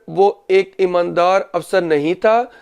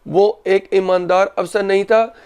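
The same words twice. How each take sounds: Both takes have the same delivery.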